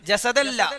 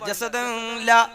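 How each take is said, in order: First: The n merges into a doubled l. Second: The n sound is heard before la. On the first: The speaker calls it right. "പിന്നെ എങ്ങനെയാ? ജസദല്ല" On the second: The speaker calls it wrong. "ജസദൻ ലാ അങ്ങനെയല്ല"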